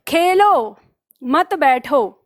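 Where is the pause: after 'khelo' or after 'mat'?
after khelo. There is a pause after the first word. The listener should play, not sit.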